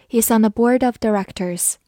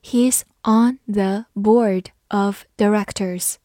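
First: Said in the usual way. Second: Measured model sentence with gaps between words; slow reading. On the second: Shown as a demonstration. Teacher leading learners through the example, slow reading. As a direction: read slowly, word by word. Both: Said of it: "慢慢来读".

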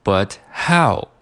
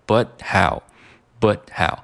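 First: "but how" with the t of "but" kept; full "but". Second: "but how" with no t released in "but"; t dropped. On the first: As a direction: say both words fully in "but how". (保留t的读法) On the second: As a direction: cut "but" short before "how". (省略t的读法) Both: Shown as a demonstration. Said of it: "把这个but里面的这个t去掉".

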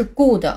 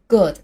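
First: "good" with a tense Mandarin "gu" vowel and a full "de" ending; wrong pronunciation. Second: "good" with a short lax vowel and light final d; correct pronunciation. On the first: Teacher warns learners what not to say, "good" mispronounced as "gu-de". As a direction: misread "good" as "gu-de". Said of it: "它的读音不是good". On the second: Teacher has learners read it once more, short crisp "good". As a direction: model "good" briefly, lips relaxed. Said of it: "最后我们刚刚学的音标". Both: Shown as a demonstration.

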